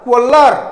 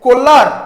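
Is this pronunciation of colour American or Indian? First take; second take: American; American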